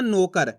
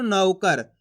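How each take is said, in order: First: नौकर said as "no-kar", with a pure o; wrong o vowel. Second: नौकर with a wide, open au in नौ; stressed au. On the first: Teacher showing how not to read it, au turned into o. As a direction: flatten the au of नौकर into a plain o. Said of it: "ऐसे नहीं पढ़ना". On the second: Teacher showing learners the right reading, au stressed. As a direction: lean hard on the au of नौकर, "nau-kar". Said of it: "जोर लगा के". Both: Shown as a demonstration.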